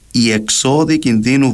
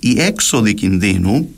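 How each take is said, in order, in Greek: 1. Ο τόνος είναι στη δεύτερη συλλαβή. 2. Ο τόνος είναι στην πρώτη συλλαβή. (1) "με τονισμό στην παραλίγουσα δηλαδή" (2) "με τονισμό στην προπαραλίγουσα"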